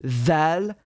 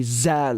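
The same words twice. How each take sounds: First: Zal, tongue between the teeth; standard Arabic Dhal. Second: Zal with a plain buzzing z; Zal, turn the th into a z; dialect Z sound. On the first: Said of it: "we say Zal, like a Z". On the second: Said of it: "like a Z, you know?". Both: Shown as a demonstration.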